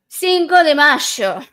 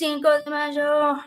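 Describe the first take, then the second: First: It is said in an Argentinian accent. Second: It is said in an American accent. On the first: "I'm going to say it in an Argentinian accent" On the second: "that was my very Americanized accent"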